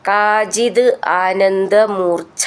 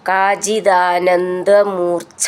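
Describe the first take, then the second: First: The two words are said separately. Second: The two words are said joined together.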